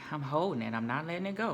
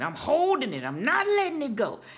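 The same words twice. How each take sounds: First: It sounds unsure, like a question. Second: It sounds certain, like an exclamation.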